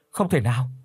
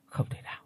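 First: Denial in full voice; voiced disbelief. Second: Stunned whisper, very soft; muttering. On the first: Son denying news of his mother, in voiced disbelief. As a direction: say it aloud, refusing to believe. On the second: Son stunned by news of his mother, muttering under his breath. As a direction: whisper it to yourself in disbelief. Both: A narrator's reading. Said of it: "miệng thì lẩm bẩm".

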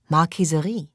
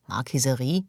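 First: MARQUISERIE pronounced as a deliberate announcement; stated answer. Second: MARQUISERIE starting low and rising to a question; questioning echo. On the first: Answer, read off a sign. („Marquiserie“ als Antwort verkündet) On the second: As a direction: repeat "Marquiserie" puzzled, lifting the end. Puzzled echo of the answer. („Marquiserie“ fragend wiederholt) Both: Acted.

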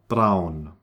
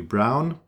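First: Braun with a German r, lower; falling braun, German r and ow. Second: Brown with an English r. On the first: Teacher returns to German, braun with German r. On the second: Teacher compares with English, English r in brown. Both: Shown as a demonstration. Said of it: "it's exactly like in English".

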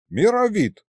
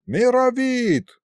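First: Shorter, earnest high address; very serious address. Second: High, long-held call; summoning call. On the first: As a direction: say the name with grave urgency. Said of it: "Очень серьёзно обратился к нему лиховид". (очень серьёзно) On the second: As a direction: holler the name out, stretched long. Summons the other sorcerer. (зовёт протяжно, высоко) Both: A narrator's reading.

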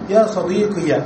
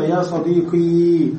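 First: يا صديقي ending in an open short -ya; صديقي closed with a fatha on the ya. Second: يا صديقي with the final ي a plain long ee, no vowel after; صديقي closed with a sukun on the ya; silent ya ending. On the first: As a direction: voice the final ي as "ya". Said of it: "تنطق الياء بالفتحة". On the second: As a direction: end صديقي on a held long i. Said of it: "بتسكين الياء". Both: Shown as a demonstration.

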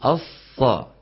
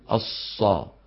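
First: "الصا" with lips relaxed, not pursed; unrounded sad. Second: "الصا" with lips pursed on the ص; rounded-lip sad. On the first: Teacher correcting students, "الصا" with a clear unrounded ص. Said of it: "ضم الشفتين عند نطق الصاد". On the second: Teacher showing what not to say, "الصا" with pursed lips. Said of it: "ما يقول الصا". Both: Shown as a demonstration.

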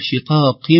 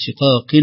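First: شقاق ending in a hummed "-im"; nun turned meem. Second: شقاق ending in a plain "-in"; unchanged nun. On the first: Teacher showing the changed ending, nun turned meem. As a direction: close شقاق on a nasal m. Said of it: "تنقلب مباشرة هذه النون". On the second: Teacher showing what it does not become, unchanged nun. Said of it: "وليست شقاق". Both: Shown as a demonstration.

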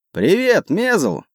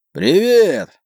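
First: High-pitched hail across the water; called-out greeting. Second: High, strained hoarse hail; hoarse shouted reply. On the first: Captain hails his friend on the next ship, calling out. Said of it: "крикнул наш капитан". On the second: Friend answers the captain from the other ship, hoarse shout. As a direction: call back hoarsely, drawing out the word. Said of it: "хрипло ответил тот". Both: A narrator's reading.

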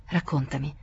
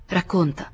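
First: Said in the usual way. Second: A slightly firmer repeat of the order; louder. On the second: A narrator's reading. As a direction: press him to speak. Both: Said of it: "ripeté più forte".

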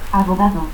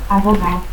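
First: Said in the usual way. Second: Abogao without its D; dropped D. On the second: Shown as a demonstration. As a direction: end in "-ao": Abogao. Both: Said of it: "pérdida de la D intervocal".

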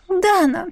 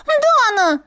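First: Дана called high and sweetly by the otter; wheedling call. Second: Дана cried high with a falling wail; indignant yelp. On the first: Otter calls her mistress. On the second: Otter falls, cries out. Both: Acted.

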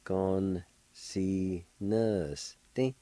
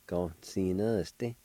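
First: Con sinuste very slowly, each syllable apart. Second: Said in the usual way. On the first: Shown as a demonstration. Teacher showing how it is pronounced, slow syllable by syllable. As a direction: sound out Con, si, nus, te with pauses. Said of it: "pronounce the N sound with the G A like this". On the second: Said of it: "like this".

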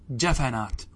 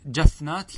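First: جفنات said "jafanāt", a after the f; required vowel echo. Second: جفنات said "jafnāt", no vowel after the f, questioning; disallowed unvoweled fa. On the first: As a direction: say جفنات as ja-fa-nāt, echoing the first a. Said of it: "بل يجب الإتباع". (جفنات بفتح الفاء) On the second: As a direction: offer جفنات as jaf-nāt, closed on f. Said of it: "لا، لا يجوز". (جفنات بسكون الفاء بنبرة سؤال) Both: Shown as a demonstration.

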